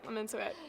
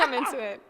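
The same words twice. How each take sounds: First: Quiet repeat. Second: Said in the usual way. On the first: Real, not acted. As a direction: murmur it again, softer.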